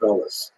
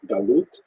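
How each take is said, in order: First: It is said in an Ashkenazi Hebrew pronunciation. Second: It is said in a standard Hebrew pronunciation. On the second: "In Hebrew"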